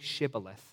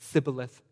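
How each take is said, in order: First: The word begins with an 'sh' sound. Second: The word begins with an 's' sound. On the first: The speaker is not from Ephraim. "say Shibboleth" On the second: The speaker is from Ephraim. "They can't pronounce that SH"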